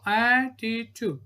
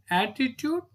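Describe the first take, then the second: First: "attitude" slowly stretched as at-ti-tude; split into syllables. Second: Said in the usual way. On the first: Shown as a demonstration. Teacher showing three syllables, "attitude" said beat by beat. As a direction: say "attitude" in three slow beats. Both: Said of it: "three syllabic word".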